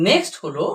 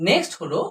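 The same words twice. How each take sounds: No difference in how they are said.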